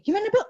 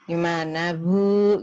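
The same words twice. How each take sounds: First: "Gimana, Bu?" squeaked much higher and louder; shrill-sounding high pitched "Gimana, Bu?"; too high. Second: "Gimana, Bu?" with a sharp loud jump on "Bu"; wrong tone. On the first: Nurse asking a patient how not to, high loud "Gimana, Bu?". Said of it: "jangan sampai gini". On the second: Nurse asking a patient the wrong way, loud sharp "Bu?". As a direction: snap "Bu?" out loud and rising. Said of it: "Jadi jangan". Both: Shown as a demonstration.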